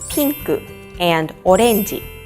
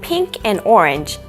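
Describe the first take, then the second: First: The colour words are said with Japanese pronunciation. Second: The colour words are said with English pronunciation.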